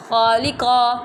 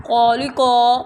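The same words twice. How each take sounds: First: "خالقہ" with light lam and heavy qaf; now model the correct "خالقہ", thin lam, full qaf; correct reading. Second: "خالقہ" with lips rounded, heavy on every letter; wrong reading. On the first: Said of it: "اب لام باریک رکھی ہے میں نے". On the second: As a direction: deliberately show the wrong, over-heavy "خالقہ". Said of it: "first timing میں آپ کو غلط پڑھوں گی". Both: Shown as a demonstration.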